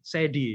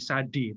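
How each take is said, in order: First: The first vowel sounds like 'eh'. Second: The first vowel sounds like 'ah'. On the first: The speaker calls it wrong. "tapi kemudian Sedi ya" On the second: The speaker calls it right. "Jadi Sadi"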